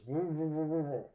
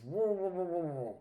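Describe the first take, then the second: First: Mumbled through a full mouth, words lost; mumbling with a mouthful. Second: Repeated mumble through a full mouth, higher and louder at the start; louder mouthful mumble. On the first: Fisherman with worms in his mouth answers the other guy, mumbling. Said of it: "he mumbles". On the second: Fisherman with worms in his mouth repeats himself, mumbling louder. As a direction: push the mumble harder so he can be understood. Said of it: "The guy says". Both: Retold or imitated.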